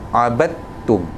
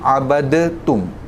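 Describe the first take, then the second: First: The d is silent, going straight into t. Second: The d is released with an echoing bounce. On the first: The speaker calls it right. "ignore the dal, go straight into the ta from the ba" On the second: The speaker calls it wrong. "otherwise it would have been abadatum with the qalqalah"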